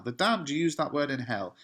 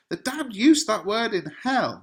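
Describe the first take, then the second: First: Said in the usual way. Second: Dramatic cry. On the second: Acted. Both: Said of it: "over-the-top dramatic reaction from Romeo".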